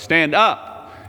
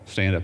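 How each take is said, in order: First: It is said very loudly. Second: It is said quietly, in a low voice. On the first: It is meant to wake the sleeper. "he said it very loudly" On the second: It is meant not to wake the sleeper. "in the same tone of voice"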